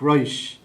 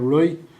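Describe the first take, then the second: First: The final t is extended and fricated. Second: The final t is a glottal stop. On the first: "a fricative, You kind of extend the T and you, you fricate it" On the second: "a glottal variant, you don't really pronounce the T"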